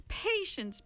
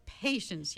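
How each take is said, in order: First: Sing-song high PATIENCE; mock patience. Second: Said in the usual way. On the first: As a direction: Patience drawn up high, chiding. Villain chiding Meg.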